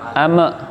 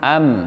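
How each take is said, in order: First: The m bounces off into a short vowel. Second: The m is held softly and stops cleanly. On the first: The speaker calls it wrong. "yang mim sukun jangan ame" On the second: The speaker calls it right. "nekannya halus ... Tidak boleh sampai meman"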